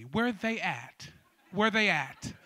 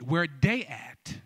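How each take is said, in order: First: Careful "Where they at" with a soft th in "they"; general pronunciation. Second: Slow AAVE "Where they at" with "they" as "dey"; AAVE pronunciation. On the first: Host offers non-AAVE speakers the standard "they". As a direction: enunciate "they" in standard English, low. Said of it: "we can speak it generally". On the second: Host demonstrates the response to the crowd in AAVE. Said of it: "added a little A A V E". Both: Shown as a demonstration.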